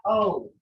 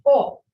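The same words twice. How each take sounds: First: The O in "O" said short and unstressed, no lift; the wrong O. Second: The O in "O" said long and stressed, slightly raised; the right O. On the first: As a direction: throw away the "O" lightly, as learners wrongly do. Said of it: "You have to say O, not". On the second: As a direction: stress this "O" clearly and draw it out. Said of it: "I stress this O". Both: Shown as a demonstration.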